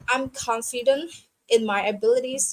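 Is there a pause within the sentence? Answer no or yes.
yes. It is said with a pause inside. The speaker calls it right. "but you try to make a gap"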